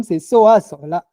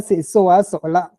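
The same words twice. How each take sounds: First: "Soa Sola" with a rising a for habit; "Soa Sola" said with the habitual rising tone. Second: "Soa Sola" with a falling a, completed sense; "Soa Sola" with the accomplished tone. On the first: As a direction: let "Soa" rise to mark the habitual. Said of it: "Pourtant, le deuxième". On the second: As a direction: say "Soa Sola" as a finished event. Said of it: "Le premier". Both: Shown as a demonstration.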